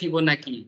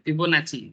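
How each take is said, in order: First: The third syllable starts with a 'k' sound. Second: The third syllable starts with a 'ch' sound. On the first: "कोई कोई बोलते हैं फिबोनाकी" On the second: "कोई कोई नची बोलते हैं"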